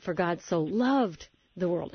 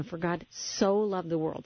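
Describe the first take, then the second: First: Slow, with "loved" carrying the weight; slow read that leans on "loved"; stress on loved. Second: Slow, with "so" weighted most; slow reading that leans on "so"; stress on so. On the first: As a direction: press on "loved" and let it ring. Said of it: "Then think about". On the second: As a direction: lean on "so", said slowly. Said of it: "underline each one of these words at different times to emphasize". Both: Shown as a demonstration.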